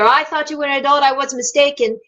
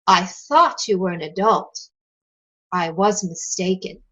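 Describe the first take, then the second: First: The two clauses run together without a pause. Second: There is a clear pause between the two clauses. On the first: The speaker calls it wrong. "If you run it all together" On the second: The speaker calls it right. "There are two chunks of thought here"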